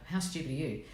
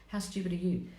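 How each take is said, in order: First: Said in the usual way. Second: A hushed, scornful jab; whispered scorn. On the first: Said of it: "The owl will go". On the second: Retold or imitated. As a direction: whisper it with contempt. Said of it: "And then the owl goes".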